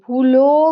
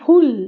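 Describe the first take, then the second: First: The word ends with an added o vowel. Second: The word ends on a closed l sound. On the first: The speaker calls it wrong. "ভুলো বা এরকম নয়" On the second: The speaker calls it right. "ল লটা কিরকম ভুল এরকম হচ্ছে"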